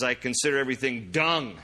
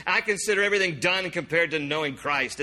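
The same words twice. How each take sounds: First: Said in the usual way. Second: Lightly mock-refined, higher pitched quote; mock sophisticated. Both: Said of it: "It's a very sophisticated".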